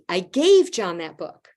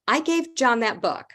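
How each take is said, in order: First: The stress falls on the word gave. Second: The stress falls on the word I. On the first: It was a gift, not lent or sold. "I gifted it to him" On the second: I was the one who gave it, nobody else. "just the first one"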